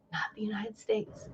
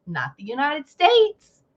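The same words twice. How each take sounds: First: Unvoiced whisper of the aside; whispered repeat. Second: Said in the usual way. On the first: Mocking Norwegian whispering its snub of the US. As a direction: hiss it under your breath. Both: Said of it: "Norwegian says".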